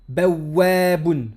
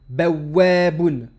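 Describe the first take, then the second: The two takes are said the same way.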